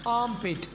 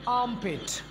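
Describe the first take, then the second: The two takes are said the same way.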